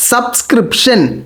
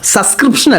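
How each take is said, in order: First: The word is pronounced clearly and fully. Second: The word is pronounced in a garbled way. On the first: The speaker calls it right. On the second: The speaker calls it wrong.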